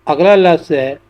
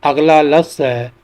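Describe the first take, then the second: Both takes have the same delivery.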